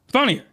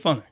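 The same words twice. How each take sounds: First: Funnier said as a quick fix; self-correction. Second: Funner said as a slip; wrong word. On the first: Reviewer fixes his slip, saying Funnier. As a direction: correct it to Funnier, slightly higher. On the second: Reviewer slips, saying funner. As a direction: say funner casually, the wrong form. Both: Real, not acted.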